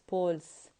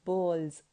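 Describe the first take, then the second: First: The word ends with a hissing s sound. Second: The word ends with a buzzing z sound. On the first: The speaker calls it wrong. "not balls" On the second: The speaker calls it right. "you have to pronounce it as balls"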